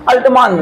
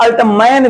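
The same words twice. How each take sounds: First: अल्टमान with a long "aa" in the last syllable; long-aa pronunciation. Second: अल्टमैन with an open "ai" in the last syllable; variant "main" pronunciation. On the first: Teacher naming the scientist to students, अल्टमान ending in "maan". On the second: Teacher showing students the other version, अल्टमैन ending like "man". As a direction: say अल्टमैन to end like English "man". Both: Shown as a demonstration. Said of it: "कुछ लोग अल्टमैन भी कहते हैं".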